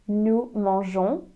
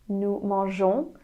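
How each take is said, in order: No difference in how they are said.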